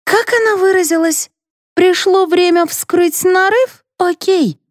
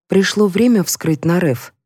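First: High-pitched sarcastic quoting; mocking echo. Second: Said in the usual way. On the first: A narrator's reading. Mother throwing the narrator's words back, mocking. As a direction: parrot her words in a high, taunting voice.

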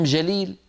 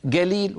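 First: Said in the usual way. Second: "قليل" said galil, with hard g; hard g opening "قليل"; jim as gaf. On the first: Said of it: "وقصدهم جليل". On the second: Shown as a demonstration. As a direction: say "قليل" as galil, meaning jalil. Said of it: "نفسه مقابل الجيم".

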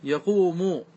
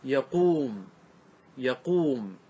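First: يقوم as yaq-WU-mu, sounded w after q; original underlying form. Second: يقوم as ya-QUUM, long uu, falling; resulting form read out. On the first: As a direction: say unmerged يقوم with final u, yaq-wu-mu. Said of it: "ما أصله؟". (نطق «يقوم» على أصلها: يَقْوُمُ) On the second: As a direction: draw out يقوم with no final vowel, ya-quum. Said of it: "نقرأ الكلمة، فصارت". (نطق «يقوم» بعد النقل: يَقُوم بمدّ الواو) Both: Shown as a demonstration.

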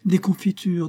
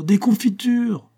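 First: Higher, eager cry of jam; a child's glad shout; excited cry. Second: Much higher and slow, stretched cry; delighted child calling out, drawn out; excited cry. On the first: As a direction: call out the idea with delight. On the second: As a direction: sing out the word as she repeats it. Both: A narrator's reading. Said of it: "s'écria Adèle".

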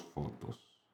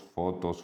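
First: Whispered, fading out. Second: Said in the usual way. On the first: A narrator's reading. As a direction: breathe the last word away. Repetición final susurrada.

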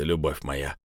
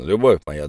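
First: Low, soft hissing; hissed. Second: Said in the usual way. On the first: Acted. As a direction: hiss it through the door crack. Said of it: "прошипел Влад".

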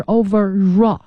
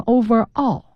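First: Overall run together as over-RALL; linked r. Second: Overall said as two words, over, all, no linking r; unlinked words. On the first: Teacher correcting students, overall linked into one word with r. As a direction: overall with the r carried into a strong "raw". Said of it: "它要连在一起读". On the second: Teacher imitating students' mistake, overall without linking. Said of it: "有同学念成overall". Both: Shown as a demonstration.

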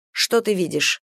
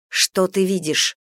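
First: Said in the usual way. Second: Slowed-down, deliberate asking; slow repeated question. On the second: A narrator's reading. Captive questioning a just-woken companion, slowly. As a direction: spell it out for someone dazed.

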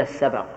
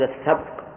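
First: السبق as "as-sabaq", short "a" after ب; fatha on ب. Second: السبق as "as-sabq", no vowel after ب; sukun on ب. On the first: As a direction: give السبق two short vowels, "sa-baq". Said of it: "أما السبق بالفتح". (السبق بباء مفتوحة) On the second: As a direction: close السبق on the cluster "bq". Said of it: "ولا السبق؟". (السبق بباء ساكنة) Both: Shown as a demonstration.

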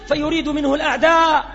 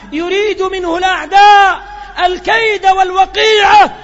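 First: Said in the usual way. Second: Louder and higher, hammering the line home; ringing pulpit emphasis; full-force preaching. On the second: Acted. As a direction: repeat it as a thunderous warning.

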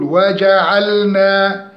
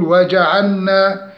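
First: Slow وجعلنا as waja'alna; recited وجعلنا, lam distinct; clear lam. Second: وجعلنا mispronounced as waja'anna; faulty وجعلنا with no lam; lam slipping to nun. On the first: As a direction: linger on the l of وجعلنا before the n. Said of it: "نقول". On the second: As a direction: merge the l of وجعلنا into a double n. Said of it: "أن تنحرف إلى النون، ولا نقول". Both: Shown as a demonstration.

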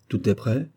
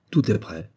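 First: "Tout est prêt" with a rising question end. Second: "Tout est prêt" with a falling end; confirming. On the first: Captain checking with his orderly, "Tout est prêt" as a rising question. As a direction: ask it, lifting the pitch on "prêt". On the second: Orderly reporting to his captain, "Tout est prêt" as a falling answer. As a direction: answer firmly, dropping the pitch on "prêt". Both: A narrator's reading.

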